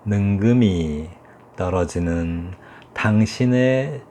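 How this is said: Each word is held long and drawn out. "길이를 충분히 주는 거죠"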